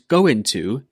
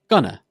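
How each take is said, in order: First: The two words are said separately in full. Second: The two words are joined and shortened. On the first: "go into becomes gonna" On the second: "a contraction is when two or more words join together and get shortened"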